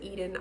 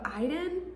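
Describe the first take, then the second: First: The name begins with an 'ee' vowel. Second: The name begins with an 'eye' vowel. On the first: "but technically it's probably Eden" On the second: "the this makes me want to say Iden, like the fact there's an I in it"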